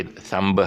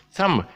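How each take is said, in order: First: "thumb" with an audible B: THUM-buh; B sounded. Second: "Thumb" ending on a closed M; silent B. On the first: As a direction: wrongly release a B after the M in "thumb". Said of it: "so you don't say thumb". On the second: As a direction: say "Thumb" as THUM, no B. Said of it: "the B is silent". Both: Shown as a demonstration.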